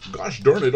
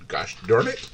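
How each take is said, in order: First: Louder, higher exasperated outburst; frustrated curse. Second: Said in the usual way. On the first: Real, not acted. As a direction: blurt it out in frustration.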